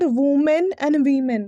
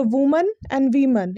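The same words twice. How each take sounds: First: Women and women ending in a full "men"; wrong pronunciation. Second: Woman and women ending in a reduced "mun"; correct pronunciation. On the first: Teacher showing the mistake, wrong pronunciation. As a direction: say women and women slowly as WOO-men, WEE-men. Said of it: "ये गलत pronunciation है". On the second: Teacher recapping singular and plural, correct pronunciation. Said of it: "इसका जो सही है". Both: Shown as a demonstration.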